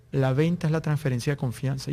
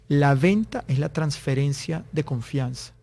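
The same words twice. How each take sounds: First: Said in the usual way. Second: Slow and deliberate, each phrase set apart; slow, weighty maxim. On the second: Retold or imitated. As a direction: deliver it slowly as a key quote. Quotes the sales guru's key maxim.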